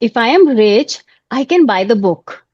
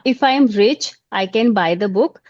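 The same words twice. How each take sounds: First: It is spoken expressively with varied tone. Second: It is read flatly with little change in tone. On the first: It sounds like speaking to someone. The speaker calls it right. "working on my tone modulation" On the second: It sounds like reading from a page. The speaker calls it wrong. "this is called reading"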